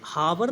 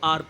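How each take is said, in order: First: The word begins with an audible h sound. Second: The word begins directly with a vowel sound. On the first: The speaker calls it wrong. "इसको हावर नहीं पढ़ते" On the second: The speaker calls it right. "इसको आर पढ़ते हैं"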